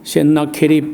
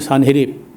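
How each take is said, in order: First: The name is said in four syllables. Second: The name is said in three syllables. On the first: This is the historians' form of the name. "일반 역사가들은 헨나케립 이렇게 에, 발음을 합니다" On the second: This is the Bible's form of the name. "우리 성경은 산헤립"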